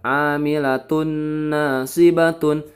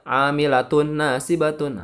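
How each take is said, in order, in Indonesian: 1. Bunyi dengung ditahan selama tiga harakat. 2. Bunyi dengung dilewati dengan cepat tanpa ditahan. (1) "ditahan tiga harokat" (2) "Jangan dibaca langsung ya"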